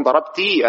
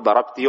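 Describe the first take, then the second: First: "ضربتي" with a drawn-out final -ee, darabtee; wrong long ending. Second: "ضربتي" with a short final -i, darabti; short kasra only. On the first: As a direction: stretch the last vowel of "ضربتي" into a long ee. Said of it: "هذا غلط". ("ضربتي" بإشباع الكسرة ياءً) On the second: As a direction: keep the last vowel of "ضربتي" short. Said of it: "وهذه بكسرة فقط". ("ضربتي" بكسرة قصيرة فقط) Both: Shown as a demonstration.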